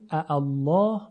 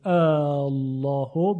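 First: Two glottal onsets, the second one softened. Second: The opening vowel is drawn out long. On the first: "به دو همزه خونده بشه که همزه دوم تسهیل بشه" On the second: "به مد خونده بشه"

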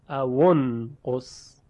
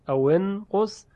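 First: The w is followed by a u vowel. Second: The w is followed by an i vowel. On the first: This follows the Warsh recitation tradition. "اما در روایت ورش مصری اون قص، واو رو زمه میده" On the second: This follows most recitation traditions. "در اکثر قرائات واو رو که ساکنه کسره میدن"

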